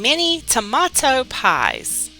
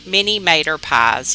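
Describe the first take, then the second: First: Tomato is said in full, three syllables. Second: Tomato is shortened to two syllables, mater. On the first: The speaker calls it wrong. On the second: The speaker calls it right.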